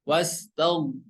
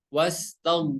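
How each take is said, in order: The two takes are said the same way.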